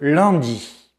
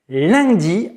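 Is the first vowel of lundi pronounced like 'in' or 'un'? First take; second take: un; in. First: The first vowel sounds like the nasal 'un'. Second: The first vowel sounds like the nasal 'in'. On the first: The speaker calls it right. "à la place de lundi" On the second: The speaker calls it wrong. "Erreur numéro huit, prononcer lundi"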